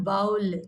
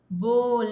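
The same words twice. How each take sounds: First: "bowl" with an ow sound, rhyming with howl; wrong pronunciation. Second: "bowl" with a long O, rhyming with hole; correct pronunciation. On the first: Teacher warns pupils off the error, "bowl" as baul. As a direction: say "bowl" as bowel in one beat. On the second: Teacher models the word for pupils, "bowl" as bohl. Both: Shown as a demonstration. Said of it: "not bowl".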